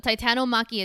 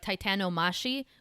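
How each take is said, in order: First: The ending is said with a 'k' sound. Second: The ending is said with an 'sh' sound. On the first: The speaker calls it right. "So Titanomaki it stays" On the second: The speaker calls it wrong. "something stupid like Titanomashi"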